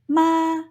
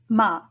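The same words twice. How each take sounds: First: It is said with the first tone. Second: It is said with the fifth tone. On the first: It means mother. "Using the first tone in Mandarin will result in the meaning for mother" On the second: It marks a question. "Using the fifth tone on the syllable makes it an interrogative particle"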